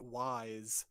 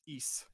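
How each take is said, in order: First: The name sounds like the word 'wise'. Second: The name sounds like the word 'east'. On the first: The speaker calls it wrong. "would be forgiven for pronouncing it Wise" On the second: The speaker calls it right. "but it's it's Ys"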